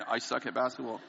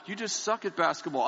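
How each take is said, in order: First: Said in the usual way. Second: "You just suck at basketball" said higher, with "suck" hit hard; a mock-sweet jab with "suck" stressed; mock compassionate wife. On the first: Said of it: "I just came back from hearing". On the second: Quoting his wife's blunt verdict with a light mock-sweet sting. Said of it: "here's my compassionate wife".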